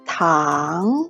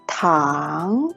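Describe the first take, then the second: First: The pitch rises from mid to high. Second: The pitch rises from mid to high.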